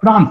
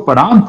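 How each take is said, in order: First: The p and r form one cluster. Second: A short vowel separates the p and r. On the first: The speaker calls it wrong. "प्रांत नहीं होगा" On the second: The speaker calls it right. "वो परांत होगा"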